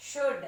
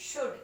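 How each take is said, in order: First: "Should" said as "ud", the sh sound dropped; "Should" starting on a bare u sound; clipped wrong should. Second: "Should" said with a full sh at the start; corrected should. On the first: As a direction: say "Should" without the opening sh. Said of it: "Should అనకూడదు". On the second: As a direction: say "Should" with a clear sh. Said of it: "ఏమనాలి?". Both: Shown as a demonstration.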